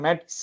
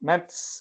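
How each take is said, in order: First: The word starts with a hard t sound. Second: The word starts with a soft th sound. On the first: The speaker calls it wrong. "நான் மெட்ஸ் தானே சொல்றோம்" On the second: The speaker calls it right. "மேத்ஸ் மேத்ஸ்"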